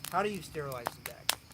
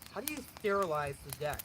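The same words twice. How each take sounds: First: It is read in a normal, natural voice. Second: It is read in a put-on, joking voice. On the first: It is said seriously. "all kidding aside" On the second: It is said as a joke. "I'm tempted to read the question in this voice"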